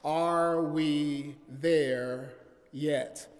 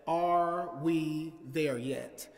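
First: Very slow, weighty title; title repeated slower, with more weight; repeated sermon title. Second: Slow drawn-out title; "Are we there yet?" slowly, each word weighed; sermon title. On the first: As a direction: lean on every word of "Are we there yet?". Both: Shown as a demonstration. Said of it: "preach from the subject".

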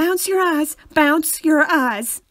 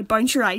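First: Loud, exaggerated American accent; hammed-up American voice. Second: Threatening-sounding Northern Irish delivery; own Northern Irish accent. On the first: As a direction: belt it out like an American. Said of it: "say it in American accent". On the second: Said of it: "It just doesn't sound right". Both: Shown as a demonstration.

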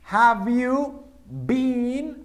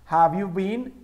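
First: Slow teacher dictation; very slow model. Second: Said in the usual way. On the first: Shown as a demonstration. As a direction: Have you been, stretched with a higher rise. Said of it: "modeled question". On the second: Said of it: "Aquí está".

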